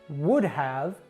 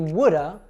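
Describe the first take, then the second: First: The word have is pronounced in full. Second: Have is reduced to a short uh sound. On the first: The speaker calls it wrong. "they taught you to always say have like this" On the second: The speaker calls it right. "It should be woulda"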